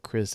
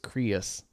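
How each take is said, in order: First: The name is said as one syllable. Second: The name is stretched into two syllables. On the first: "instead of Chris" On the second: "my name becomes two syllables"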